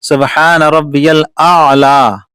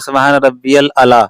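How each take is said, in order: First: The last word starts with a long vowel. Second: The last word starts with a short vowel. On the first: The speaker calls it right. "तो अला नहीं है" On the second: The speaker calls it wrong. "किसी किसी की आदत हो जाती है या नहीं निकल पाता"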